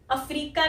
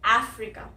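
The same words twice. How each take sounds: First: 'अफ्रीका' as a-FREE-ka, long middle vowel; wrong pronunciation. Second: 'अफ्रीका' as AF-ri-ka, short 'ri'; correct pronunciation. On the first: Teacher warns learners off this form, mispronounced 'अफ्रीका'. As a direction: stretch and stress the 'ree' in 'अफ्रीका'. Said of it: "अफ्रीका नहीं". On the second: Teacher contrasts it with the mistake, English-style 'अफ्रीका'. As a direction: open 'ae' up front in 'अफ्रीका'. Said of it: "इसकी जो correct pronunciation है". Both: Shown as a demonstration.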